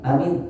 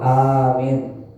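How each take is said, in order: First: The vowels are short and clipped. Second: The vowels are drawn out long. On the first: The speaker calls it wrong. "Maka jangan amin" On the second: The speaker calls it right. "harus agak pan panjangkan"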